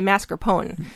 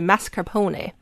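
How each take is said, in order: First: It is pronounced in an American Wisconsin style. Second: It is pronounced in an Italian style. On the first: "because I'm from Wisconsin, I say mascarpone" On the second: "if you're Italian, you're going to say mascarpone"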